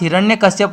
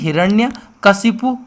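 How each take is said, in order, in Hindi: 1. यह शब्द 'shyap' अक्षरों से समाप्त होता है। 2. यह शब्द 'shipu' अक्षरों से समाप्त होता है। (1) "हिरण्यकश्यप नहीं" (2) "हिरण्यकशिपु शुद्ध आता है"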